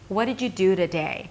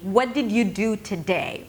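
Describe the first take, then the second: First: The consonants are soft, almost mumbled together. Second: Every consonant is pronounced clearly and separately. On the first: The speaker calls it right. "should be super soft, almost like you're mumbling them" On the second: The speaker calls it wrong. "If I'm pronouncing every sound clearly and perfectly"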